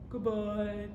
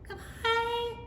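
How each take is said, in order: First: It is said in a very low voice. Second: It is said in a high, squeaky voice. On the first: "Let's say goodbye as low as we can" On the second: "say goodbye in a high squeaky voice"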